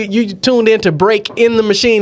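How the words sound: There is a pause separating break from in. The name is heard as break in the machine. The speaker calls it right. "I would have to pause like"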